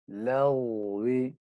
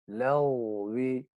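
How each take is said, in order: No difference in how they are said.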